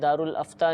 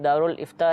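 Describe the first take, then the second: First: The second word begins with an 'a' vowel. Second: The second word begins with 'i', two syllables. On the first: The speaker calls it wrong. "नहीं है" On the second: The speaker calls it right. "बल्कि दारुल इफ्ता है"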